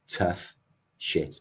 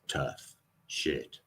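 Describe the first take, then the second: First: It is said in a natural speaking voice. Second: It is said in a put-on old-fashioned voice.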